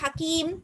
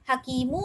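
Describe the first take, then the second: First: The word ends cleanly on the final consonant. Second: The word ends with a faint final vowel. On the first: "சுக்கூன் தான் நாங்க நிப்பாட்டுற" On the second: "சுக்கூன் வைக்காம ஹக்கீமு"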